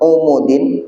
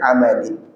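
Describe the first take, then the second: First: The first two vowels are u sounds. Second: The first two vowels are a sounds. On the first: "Yang pertama di domah" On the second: "bisa juga dibaca dengan"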